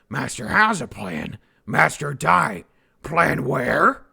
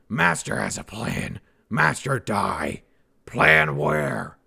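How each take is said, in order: First: The line is delivered with more varied expression. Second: The line is delivered in a flat monotone. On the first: The speaker calls it right. "There you go" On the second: The speaker calls it wrong. "Probably that's a little bit too monotone"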